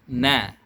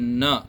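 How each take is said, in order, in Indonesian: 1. Vokal diucapkan dengan mulut melebar. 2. Vokal diucapkan tanpa melebarkan mulut. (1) "harus melebarkan mulut ke kiri dan ke kanan" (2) "bukan na"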